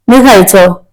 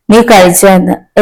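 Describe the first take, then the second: First: Said in the usual way. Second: A touch of wonder on നീ; touched echo. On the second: A narrator's reading. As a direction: stress on നീ in നീ കഴിച്ചോ, lingering on it. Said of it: "എത്ര കരുതൽ, എത്ര സ്നേഹം".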